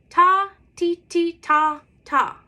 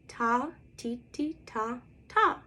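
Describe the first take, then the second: First: It is said at a medium loud volume. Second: It is said at a medium quiet volume.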